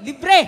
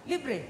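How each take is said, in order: First: Shouted Libre. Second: Said in the usual way. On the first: Shown as a demonstration.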